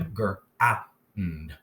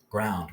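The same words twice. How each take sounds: First: "Gr-a-und" in three separate sounds; slow phonics split of "Gr-a-und"; sounded out. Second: Said in the usual way. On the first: Shown as a demonstration. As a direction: break "Gr-a-und" into gr, ow, nd. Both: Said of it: "Let's sound out as we need to".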